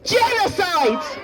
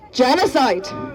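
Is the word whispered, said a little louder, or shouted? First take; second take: shouted; a little louder. First: The word is shouted. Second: The word is said a little louder.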